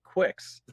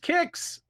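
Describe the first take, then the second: First: The name starts with a kw sound. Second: The name starts with a plain k sound. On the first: The speaker calls it wrong. "was pronouncing it Quicks" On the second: The speaker calls it right. "I did pronounce it correctly. It is Kicks"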